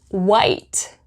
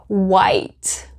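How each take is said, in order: No difference in how they are said.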